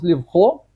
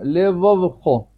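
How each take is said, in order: First: The two v sounds merge with no vowel between. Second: A short vowel separates the two v sounds. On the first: The speaker calls it wrong. "чтобы не получилось левхо" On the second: The speaker calls it right. "поэтому я выделяю его второе"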